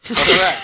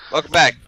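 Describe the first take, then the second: First: High playful greeting. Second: Said in the usual way. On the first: Real, not acted. Playful repeated greeting, much higher.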